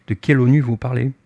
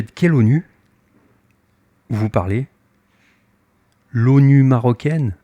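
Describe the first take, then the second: First: Said in the usual way. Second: Mocking question. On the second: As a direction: toss it back with a sneer. (question moqueuse, un peu traînée) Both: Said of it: "il se moque de moi".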